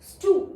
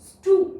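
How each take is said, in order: The two takes are said the same way.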